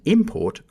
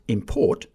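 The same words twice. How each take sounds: First: The stress is on the first syllable. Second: The stress is on the second syllable. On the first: It is used as a noun. "import for a noun" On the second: It is used as a verb. "import for a verb"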